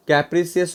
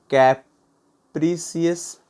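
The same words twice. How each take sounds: First: Said in the usual way. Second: कैप्रिसियस very slow, broken into separate syllables. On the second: Shown as a demonstration. Teacher giving learners a word to note down, कैप्रिसियस syllable by syllable. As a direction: say कैप्रिसियस in pieces with gaps between.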